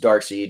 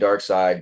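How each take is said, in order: First: The second part is said like 'seed'. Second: The second part is said like 'side'. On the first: "a lot of people say it different ways" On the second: "a lot of people say it different ways"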